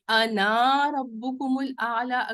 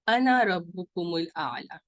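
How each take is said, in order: First: The vowel after n in ana is drawn long. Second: The vowel after n in ana is kept short. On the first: The speaker calls it wrong. "अगर पढ़ा तो गलत हो जाएगा" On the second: The speaker calls it right. "अलिफ जो है वो साइलेंट हो जाएगा"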